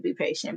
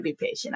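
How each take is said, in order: First: Said in the usual way. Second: Last take jumps much higher and softer; teasing singsong. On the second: Shown as a demonstration. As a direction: sing it up high like teasing the listeners.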